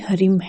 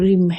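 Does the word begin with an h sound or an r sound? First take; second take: h sound; r sound. First: The word begins with an h sound. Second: The word begins directly with an r sound. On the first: The speaker calls it right. "इसका वास्तविक जो उच्चारण है वो हरिम है" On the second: The speaker calls it wrong. "कई लोग इसे रिम कहते हैं"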